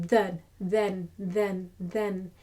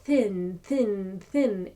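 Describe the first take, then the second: First: Then with a soft buzzing th; voiced th. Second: Thin with a hissed th; unvoiced th. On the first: Teacher modelling the soft th in then. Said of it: "soft T H". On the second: Teacher showing the th to avoid. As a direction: say thin with a breathy th. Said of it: "Not thin". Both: Shown as a demonstration.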